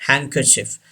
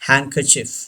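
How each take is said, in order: No difference in how they are said.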